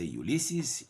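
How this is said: It is said with an American pronunciation. "in America, they will say Ulysses"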